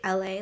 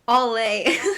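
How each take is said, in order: First: The first part is said as the letter L. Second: The first part is said as the word all. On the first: "like the letter L A" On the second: "He calls it all A"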